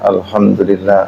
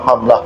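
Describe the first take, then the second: First: It is said slowly with every syllable clear. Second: It is said very fast and clipped. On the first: The speaker calls it right. "Baca pelan-pelan" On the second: The speaker calls it wrong. "Paling banter"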